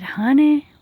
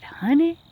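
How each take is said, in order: First: Drawn-out Southern "Honey", high and loud; a wise old Southern lady calling "Honey"; Southern belle "Honey"; southern accent. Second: High, rising Southern "Honey"; sweet Southern drawl on "Honey"; Southern auntie "Honey"; southern accent. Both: Retold or imitated. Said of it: "in a little bit of a southern accent".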